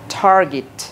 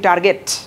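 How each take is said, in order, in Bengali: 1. এটি আমেরিকান উচ্চারণে বলা হচ্ছে। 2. এটি বাঙালি উচ্চারণে বলা হচ্ছে। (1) "আমেরিকানদের মতো বলো" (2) "আমরা বলি টার্গেট"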